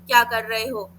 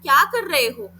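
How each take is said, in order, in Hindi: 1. इसे सपाट तरीके से बोला गया है, कोई भाव नहीं। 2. इसे भावपूर्ण तरीके से बोला गया है, उतार-चढ़ाव के साथ। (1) "तो यहाँ पे कुछ पता ही नहीं चला" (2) "हाव भाव दिए, मैंने एक टोन दिया, एक उतार चढ़ाव था"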